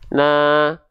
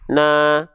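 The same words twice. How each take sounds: Both takes have the same delivery.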